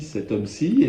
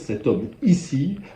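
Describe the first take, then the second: First: The word ends in plain 'ci' with no extra 'i'. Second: A strongly stressed 'i' comes before 'ci'. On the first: The speaker belongs to the rising middle class. "la bourgeoisie avait tendance à dire" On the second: The speaker belongs to the nobility. "en insistant bien sur le i"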